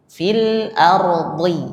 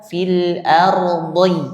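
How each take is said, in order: The two takes are said the same way.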